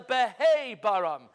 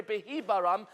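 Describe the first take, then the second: First: Stressed hei in behei-baram; behei-baram with an ay sound, hei stressed; beheibaram with hei. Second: Hi vowel in behibaram; the written reading, hi in the middle. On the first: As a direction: punch hei louder as the corrected reading. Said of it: "ela behi baram". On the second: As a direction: say behi-baram with an ee sound. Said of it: "Al tikre behi baram". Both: Shown as a demonstration.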